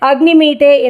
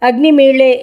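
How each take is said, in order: First: The consonant before the final vowel is a 'd'. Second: The consonant before the final vowel is an 'l'. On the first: This is the Yajurveda reading. "Yajurveda பாடம்தான்" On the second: This is the Rigveda reading. "ரிக்வேதத்தில் இது அக்னிமீளே என்றுதான் இருக்கிறது"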